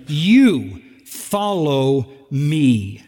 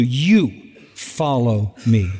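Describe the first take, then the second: First: "You" stretched long and leaned on, words drawn out very slowly; emphatic YOU. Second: "You" leaned on, lower and slow; stress on you. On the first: Preacher stressing Jesus's command to Peter, slow emphatic YOU. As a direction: hold "You" then land "follow me". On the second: Preacher repeating the command to the church, stress on you. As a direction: press the word "You" firmly. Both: Shown as a demonstration. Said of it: "this is emphatic".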